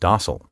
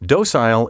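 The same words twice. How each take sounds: First: It uses the preferred American pronunciation. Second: It uses the British and Canadian pronunciation. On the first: "The preferred American pronunciation is docile" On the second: "Docile is the preference of British and Canadian speakers"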